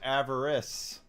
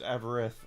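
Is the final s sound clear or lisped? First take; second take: clear; lisped. First: The final sound is a clear s. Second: The final sound is a lisped th. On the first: "his name is Avarice" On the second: "he has a lisp, so it's Avarith"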